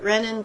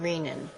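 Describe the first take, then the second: First: The first syllable sounds like 'ren'. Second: The first syllable sounds like 'ree'. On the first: It sounds the same as the name of a different enzyme. The speaker calls it wrong. "Some people pronounce it renin, but we'll see there's another enzyme called renin" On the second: It matches the word for the kidneys. The speaker calls it right. "it comes from the kidneys, which the term is renal. So let's call this one renin"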